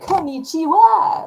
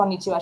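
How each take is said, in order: First: It is said with exaggerated Western-style stress. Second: It is said plainly, without added stress.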